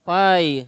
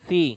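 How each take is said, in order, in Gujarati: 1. શબ્દ 'eye' સ્વર પર પૂરો થાય છે. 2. શબ્દ 'ee' સ્વર પર પૂરો થાય છે. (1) "બધા ફાઈ ફાઈ જ બોલ્યા કરતા છે" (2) "સ્પેલિંગ પી એચ આઈ છે એટલે એમ જોવા જઈએ તો"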